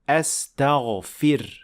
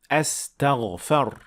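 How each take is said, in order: First: The vowel after the f is 'i'. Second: The vowel after the f is 'a'. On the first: The speaker calls it right. "pronounce a kasra under the fa" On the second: The speaker calls it wrong. "with fatha on top of the fa. And this is definitely wrong"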